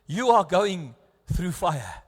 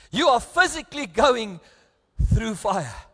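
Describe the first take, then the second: First: Said in the usual way. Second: Louder, leaning hard on "physically"; stress on physically. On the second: Shown as a demonstration. Preacher repeating to the congregation, "physically" stressed louder.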